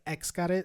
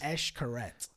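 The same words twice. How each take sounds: First: The name starts with an 'ex' sound. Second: The name starts with an 'esh' sound. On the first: The speaker calls it wrong. "I used to say Xcaret. It's not" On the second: The speaker calls it right. "I gotta say it right"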